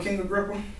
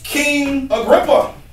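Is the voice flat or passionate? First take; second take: flat; passionate. First: The name is said in a flat, casual voice. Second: The name is said in an intense, passionate voice. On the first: The speaker is just reporting events calmly. The speaker calls it wrong. "He's not sitting there, well, you know" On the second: The speaker is pleading earnestly with the king. The speaker calls it right. "He's like, oh"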